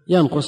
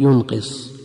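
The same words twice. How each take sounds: First: It is read yanqus, with no doubled consonant. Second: It is read yunqis, with no doubled consonant. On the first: "إذا قلنا الثلاثي متعدي بنفسه" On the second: "وإذا قلنا ثلاثي معدى بالهمزة نقول ينقص"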